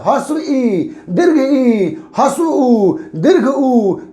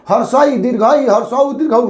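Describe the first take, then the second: First: Each vowel is said apart from the word before. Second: Each vowel is merged into the word before it. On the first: The speaker calls it right. "शुद्ध बोलना चाहिए" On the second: The speaker calls it wrong. "No गलत है"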